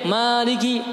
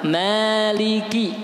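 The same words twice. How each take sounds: First: The syllables are rushed and vowels clipped short. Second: Each syllable gets a full, even vowel length. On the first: The speaker calls it wrong. "tergesa-gesa bacanya, tidak sempurna satu harokat" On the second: The speaker calls it right. "yang betul maliki itu satu-satu"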